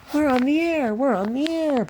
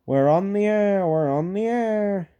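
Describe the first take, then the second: First: High, chugging little engine chant; puffing Peter Sam. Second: Said in the usual way. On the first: A narrator's reading. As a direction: puff it out high and proud. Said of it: "puffed Peter Sam".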